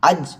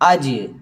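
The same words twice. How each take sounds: First: The final j is soft, with no bounce. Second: The final j is firm with a bounce. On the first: The speaker calls it wrong. "അജ് എന്ന് പറയുന്നതിന് പകരം" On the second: The speaker calls it right. "കട്ടിക്ക് തന്നെ നമ്മൾ പറയണം"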